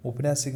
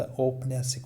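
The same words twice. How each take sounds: First: औपन्यासिक mispronounced with short o at the start; wrong pronunciation. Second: औपन्यासिक opening on a full au; correct pronunciation. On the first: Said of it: "औपन्यासिक नहीं होता". (औपन्यासिक में औ की जगह ओ) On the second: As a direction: round out au at the start of औपन्यासिक. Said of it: "औपन्यासिक होता है". (औपन्यासिक में साफ़ औ) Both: Shown as a demonstration.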